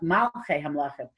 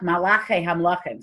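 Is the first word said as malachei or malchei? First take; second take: malchei; malachei. First: The first word is said as malchei. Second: The first word is said as malachei. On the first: God is called king of kings. The speaker calls it right. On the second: God is called king of the angels. The speaker calls it wrong.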